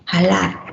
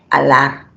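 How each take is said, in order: First: The word begins with a breathy consonant sound. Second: The word begins directly with a vowel sound. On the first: "alguna persona que dice jalar" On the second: "al leerlo, ¿cómo lo leemos? Alar"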